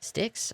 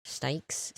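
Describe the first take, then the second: First: Sticks with a short i, pitched up as a question; high, questioning "Sticks"; unsure pronunciation. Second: Stikes with a long i, rhyming with bikes, as a question; soft, questioning "Stikes"; unsure pronunciation. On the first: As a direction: try out "Sticks" with the vowel of "sit", high and unsure. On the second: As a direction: try out "Stikes" with an eye vowel, softly unsure. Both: Real, not acted. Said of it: "I don't know how you say it".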